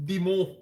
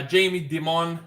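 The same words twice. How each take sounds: First: Dimon said French-style as dee-MOH, final n dropped, stress on the last syllable; French spin on a name. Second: Said in the usual way. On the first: Shown as a demonstration. Market host playfully Frenchifying the CEO's name: Dimon as dee-MOH. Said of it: "I put a French spin to his name". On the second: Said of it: "I don't know why I put a French spin".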